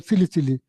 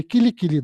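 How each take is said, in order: First: Sili Sili with s where k belongs; mispronounced mantra. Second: Kili Kili with hard k sounds; correct mantra pronunciation. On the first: Somebody quoting the man's faulty mantra, S swapped for K. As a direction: say "Sili Sili" as si-li si-li, S not K. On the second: Somebody correcting the man's mantra, correct K pronunciation. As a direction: say "Kili Kili" as ki-li ki-li, K not S. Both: Retold or imitated. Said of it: "mantra incorrectly".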